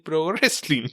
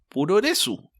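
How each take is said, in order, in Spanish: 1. Se dice con pronunciación inglesa. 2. Se dice con pronunciación japonesa.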